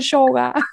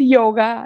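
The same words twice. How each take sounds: First: It is said with the Argentine pronunciation. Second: It is said without the Argentine pronunciation. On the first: This is the everyday local way to say the word. The speaker calls it wrong. "no yoga" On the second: This is the traditional way to say the word. The speaker calls it right. "Es nuestra nueva revolución, que tenemos que decir yoga"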